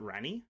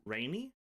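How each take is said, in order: First: "Rani" with a short a, no long AY sound; trying a pronunciation. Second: "Rainy" with a long AY in the first syllable; trying a pronunciation. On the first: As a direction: try saying "Rani" with a plain short a. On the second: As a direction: try saying "Rainy", like wet weather. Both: Shown as a demonstration. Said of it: "I don't know how it's pronounced".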